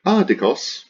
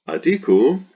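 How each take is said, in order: First: "Adikos" with the first syllable high and loud; accent on antepenult. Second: "adiku" with the second syllable high and loud; accent on penult. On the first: Teacher demonstrating the persistent accent, first-syllable stress in "Adikos". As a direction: punch the opening syllable of "Adikos". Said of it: "wants to be properis pomenon on the antepenult". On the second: Teacher showing the accent jump to the penult, middle-syllable stress in "adiku". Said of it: "must jump to the penult". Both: Shown as a demonstration.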